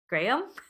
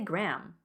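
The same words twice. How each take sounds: First: The name is said with almost two syllables. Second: The name is said as one syllable, like gram. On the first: "It's like almost like two syllables" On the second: "like as in, you know, a unit measurement"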